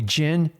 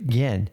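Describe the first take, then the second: First: The name begins with a J sound. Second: The name begins with a Y sound. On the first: The speaker calls it wrong. "A lot of people call me Jin. It drives me nuts" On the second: The speaker calls it right. "I am actually Yin"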